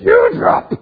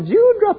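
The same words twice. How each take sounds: First: The word is said coldly, without tenderness. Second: The word is said warmly and tenderly. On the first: The affection between them has faded. "the tone has changed" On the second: The speaker still loves the other person. "it's no longer Dewdrop"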